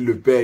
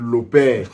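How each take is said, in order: First: The article is said with a standard 'e' vowel. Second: The article is said with an 'o' vowel. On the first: This is the usual French way of saying it. "tu vas peut-être dire le père" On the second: This is how a Cameroonian speaker says it. "il va dire le père"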